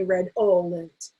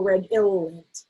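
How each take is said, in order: First: Redolent said as red-ol-ent; "ol" variant. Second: Redolent said as red-ill-ent; "ill" variant. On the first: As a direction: give redolent an "ol" middle syllable. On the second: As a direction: give redolent an "ill" middle syllable. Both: Shown as a demonstration. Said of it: "we might sometimes say".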